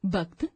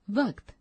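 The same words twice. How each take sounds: First: वक्त with a b, bakt; wrong pronunciation. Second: Said in the usual way. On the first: Shown as a demonstration. Teacher reading the wrong form, b for v. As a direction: say वक्त starting with b. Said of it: "अशुद्ध शब्द". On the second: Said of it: "शुद्ध शब्द".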